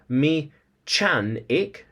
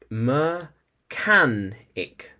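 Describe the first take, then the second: First: The middle consonant is a ch sound. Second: The middle consonant is a hard k sound. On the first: The speaker calls it wrong. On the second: The speaker calls it right.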